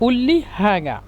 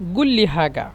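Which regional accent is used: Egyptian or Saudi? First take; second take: Egyptian; Saudi. First: The first word starts with a glottal stop. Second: The first word starts with a hard g sound. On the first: "মিশরের আঞ্চলিক ভাষায় এরা বলে" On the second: "Saudi আরবরা বলে"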